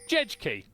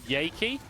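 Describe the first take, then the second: First: The name begins with a J sound. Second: The name begins with a Y sound. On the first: The speaker calls it wrong. "I saw J E J K Y, and I was like, Jejki. That's that's not a name" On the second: The speaker calls it right. "there's a jungler who plays in the Hit Point Masters called Yaki"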